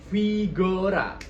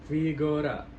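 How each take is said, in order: First: "Vigora" starting on a crisp f; Vigora jelas. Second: "Vigora" with a weak, muffled first sound; F tidak terasa. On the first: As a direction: articulate "Vigora" fully and slowly. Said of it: "pelafalannya itu harus jelas". ("Vigora" dengan F jelas) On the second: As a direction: swallow the f at the start of "Vigora". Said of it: "F-nya itu nggak kerasa". ("Vigora" bergema, F tidak terasa) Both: Shown as a demonstration.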